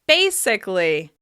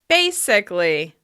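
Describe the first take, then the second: The two takes are said the same way.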